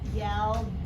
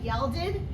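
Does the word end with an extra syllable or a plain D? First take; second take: plain D; extra syllable. First: The ending is said as a plain D sound. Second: The ending is said as an extra syllable. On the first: The speaker calls it right. "because it just says D, right? Watch this" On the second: The speaker calls it wrong. "so you want to say yelded? Mm, no"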